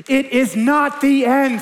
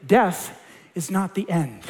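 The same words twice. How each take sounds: First: Slow, higher, louder declaration; preacher lands the promise to the congregation, louder and higher. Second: Said in the usual way. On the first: Real, not acted. Repeated climax.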